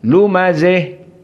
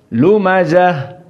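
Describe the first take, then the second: First: The final vowel is bent strongly toward 'e'. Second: The final vowel is an open 'a' sound. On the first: This is the reading of al-Kisai. "kecuali al-Kisai lumazih" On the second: This is the reading of most reciters. "Semuanya lumazah"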